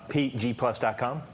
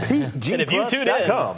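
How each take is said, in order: First: It is said in an ordinary speaking voice. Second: It is said in a deep, announcer-style radio voice.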